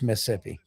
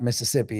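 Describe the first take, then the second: First: One middle syllable is dropped, leaving three. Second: All four syllables of the word are said. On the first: This is how locals say it. The speaker calls it right. "when you grow up in Mississippi, it's Mississippi. It's M I S S I P P I" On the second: This is how outsiders say it. The speaker calls it wrong. "it's not Mississippi"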